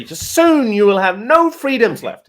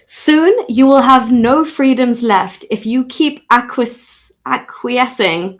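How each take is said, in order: First: Slow, high and loud warning; ominous slow announcement; dramatic ominous read. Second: Slow, louder posh British read; posh British accent, slow and stately. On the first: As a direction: say it like a doom-laden prophecy. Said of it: "Like, just say". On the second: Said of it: "Okay, fine". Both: Shown as a demonstration.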